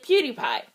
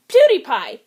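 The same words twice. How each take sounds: First: Said in the usual way. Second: Loud blurt. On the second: Acted. Blurts cover word loudly.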